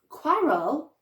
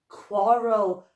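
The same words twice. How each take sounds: First: The first vowel sounds like the 'a' in cat. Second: The first vowel sounds like the 'o' in hot. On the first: The speaker calls it wrong. "I don't know what a quarrel is" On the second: The speaker calls it right. "I'm going to try that as an O"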